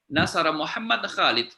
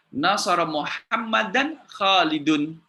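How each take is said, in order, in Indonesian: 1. Akhiran kasus dihilangkan saat berhenti. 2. Akhiran kasus -an dan -un diucapkan. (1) "kalau dibaca wakaf" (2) "Muhammadan dibaca fathah berada di depan, Khalidun di di dhammah"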